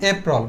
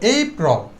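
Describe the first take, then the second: First: The word is short and clipped. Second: The word is stretched out and lengthened. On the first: The speaker calls it wrong. "আমরা কি বলতাম?" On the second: The speaker calls it right. "একটু টেনে বলবো"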